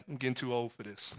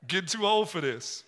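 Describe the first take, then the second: First: Low, soft, weary mutter, quick; tired old dad. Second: Repeating the line through a laugh. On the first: Retold or imitated. Shaken father telling his son after the ride, low and weary. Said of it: "It's like". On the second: Real, not acted. Preacher laughing as he repeats his dad's words. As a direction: chuckle as you echo the quote.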